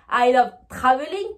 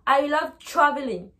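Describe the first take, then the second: First: TRAVELING with a full T and French R, louder; French-accented TR. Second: TRAVELING as "chraveling". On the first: Teacher for learners to repeat, TRAVELING with French TR. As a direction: hit both T and R in TRAVELING. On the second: Teacher for learners to repeat, TRAVELING with ch. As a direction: blur the TR of TRAVELING into ch, faint R. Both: Shown as a demonstration. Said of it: "essayez derrière votre écran de le répéter".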